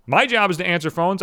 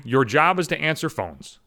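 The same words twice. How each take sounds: First: My rising up front; My said with rise; stress on My. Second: Job leaned on slowly, falling; slow, pointed job; your job said slow and cutting; mock stress on job. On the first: Shown as a demonstration. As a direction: point at MY job.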